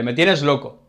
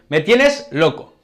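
First: Said in the usual way. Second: Serious and annoyed, louder and slow; more serious. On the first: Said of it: "también podemos decirle". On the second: Shown as a demonstration. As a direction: say it fed up with someone. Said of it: "Y lo decimos más serio".

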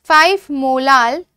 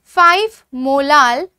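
Both takes have the same delivery.

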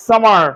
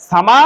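First: সামার with the r brought in, tune falling; American pronunciation. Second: সামা with no final r, tune rising; r-less British সামা; British pronunciation. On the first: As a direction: sound the final r in সামার. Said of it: "রটা আসবে". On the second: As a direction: end সামা on a lifted open vowel. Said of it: "তারা এই সামার শব্দটাকে বলবে". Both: Shown as a demonstration.

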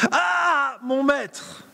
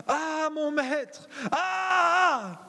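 First: High, loud anguished shout; loud acted cry. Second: Slow, high wailing cry of distress; anguished cry. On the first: Disciple shouts to his master Élisée in dismay. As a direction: belt it out like the panicked disciple. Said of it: "Je le joue parce que c'est vraiment ce qu'il dit ici". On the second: Acted. Disciple wails to his master over the lost axe head. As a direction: cry out as if the tool is lost for good. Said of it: "Je le joue".

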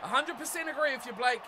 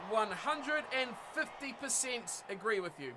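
First: Said in the usual way. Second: Slow, softer, deliberate emphasis; emphatic agreement. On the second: Real, not acted. Streamer topping own agreement with Blake, slow emphatic. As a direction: stretch it out to stress full agreement.

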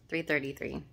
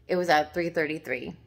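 First: A softer, amazed repeat of "Three thirty-three"; awed echo. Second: Said in the usual way. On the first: Real, not acted. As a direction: repeat "Three thirty-three" more softly, in wonder. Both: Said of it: "I can't make this stuff up".

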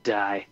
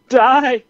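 First: Said in the usual way. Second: "Die." shouted much higher and louder; hammed-up yell of "Die.". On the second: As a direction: bark "Die." at the running buck. Willing the shot buck down.

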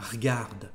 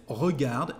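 First: Regarde said as rgarde, e swallowed; casual spoken French regarde; dropped e. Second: Said in the usual way. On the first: Shown as a demonstration. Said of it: "you can say regarde". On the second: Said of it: "instead of regarde".

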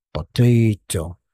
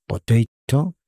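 First: "Potato" drawn out slowly, falling; slow model word. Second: "Potato" said as po-TEI-to, rising; model pronunciation. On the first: Teacher repeating "Potato" slowly so students catch it. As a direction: stretch every syllable of "Potato". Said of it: "teacher repeats slowly". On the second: Teacher showing the class how to say "Potato", rising. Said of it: "teacher modelling word". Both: Shown as a demonstration.

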